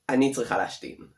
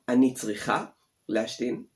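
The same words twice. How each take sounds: First: It is said at normal speed. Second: It is said very slowly.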